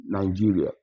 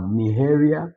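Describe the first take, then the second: First: "Nigeria" said nai-JEE-ria, with a j sound; English pronunciation. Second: "Nigeria" said nee-HEH-ria, h for g; Spanish G as H. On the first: Teacher giving the English name before the Spanish, English pronunciation. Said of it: "like, for example, in Nigeria". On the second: Teacher showing how Spanish says the country, h for g. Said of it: "So you see it as". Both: Shown as a demonstration.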